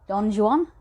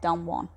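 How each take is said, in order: First: The name is pronounced the English way. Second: The name is pronounced the Spanish way. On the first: This is how the poem's title is meant. The speaker calls it right. "is pronounced the way that I've just said it" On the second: This is how the film says the name. The speaker calls it wrong. "they should not pronounce it Don Juan"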